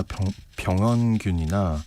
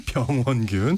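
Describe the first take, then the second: First: Real slip on 병원균, first syllable broken off and repeated; stumbled pronunciation. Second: Said in the usual way. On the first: Real, not acted. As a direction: trip over 병원균, restarting after 병. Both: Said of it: "오늘 이렇게 발음이 안 될까요".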